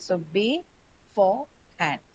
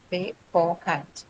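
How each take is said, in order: First: Beforehand drawn out slowly, stress on second syllable, be-FORE-hand; slow stress demo. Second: Beforehand said softly and slowly, stressed on the second syllable, be-FORE-hand; soft slow stress demo. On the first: Teacher modelling a word for students, slow and stressed. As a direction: stretch beforehand, leaning on the middle. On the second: Teacher repeating the word gently for students, slow and stressed. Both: Shown as a demonstration. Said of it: "stress on the second syllable".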